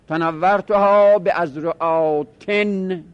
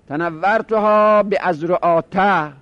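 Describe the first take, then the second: First: The last word ends in an -in sound. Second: The last word ends in a short -a sound. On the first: The word is treated as fully declinable. "جرش به کسر" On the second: The word is treated as non-declinable. "جرش به فتحه باشه بدون تنوین"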